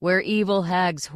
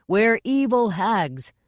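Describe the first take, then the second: First: Said in the usual way. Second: Slower, drawn-out chorus, a bit louder. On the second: A narrator's reading. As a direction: chant it out for the director.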